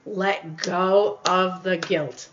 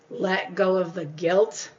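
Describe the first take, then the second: First: Drawn out slowly and let fall; slow repeated line to a guilty viewer, let it settle; slow mantra, falling. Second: Slow mantra. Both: Shown as a demonstration. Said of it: "repeated slow mantra".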